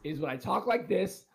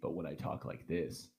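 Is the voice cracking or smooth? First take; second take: cracking; smooth. First: The voice cracks like a teenager's. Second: The voice sounds smooth and steady.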